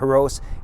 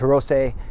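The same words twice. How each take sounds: First: The final syllable does not end in 'ay'. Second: The final syllable is pronounced 'say'. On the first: The speaker calls it wrong. "it's not Hirose" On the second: The speaker calls it right. "as S E in Japanese is pronounced say"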